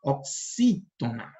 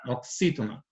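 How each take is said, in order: First: Oxítona slowly, with a long, stressed "xí"; drawn-out Oxítona, middle syllable stretched. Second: Said in the usual way. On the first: Shown as a demonstration. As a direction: lean hard and long on the "xí" of Oxítona. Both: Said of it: "essa é a sílaba que vai ser pronunciada com".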